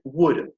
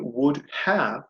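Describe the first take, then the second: First: 'Have' is squeezed into a short weak sound. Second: Both words are said fully and separately. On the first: "I say would. ... That is the spoken short form of this" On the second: "Instead of saying would have"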